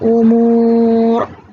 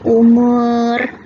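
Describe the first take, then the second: First: The ra is pronounced heavy and full. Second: The ra is pronounced light and thin. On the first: The speaker calls it right. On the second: The speaker calls it wrong.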